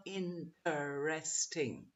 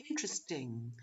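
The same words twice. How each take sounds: First: 'interesting' slowly split as in-ter-RES-ting; wrong full syllables. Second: 'interesting' as IN-tresting, low and soft; reduced syllables. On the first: Teacher warning what not to say, over-separated syllables. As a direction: drag 'interesting' out in four parts, softly. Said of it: "Not interesting". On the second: Teacher repeating it again for students, reduced pronunciation. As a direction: say 'interesting' with the middle vowel dropped. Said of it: "So again". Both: Shown as a demonstration.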